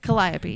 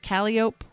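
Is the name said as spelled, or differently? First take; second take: differently; as spelled. First: The name is not sounded out as spelled. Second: The name is sounded out as it looks. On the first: The speaker calls it right. "so just say it right" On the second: The speaker calls it wrong. "That's how it looks"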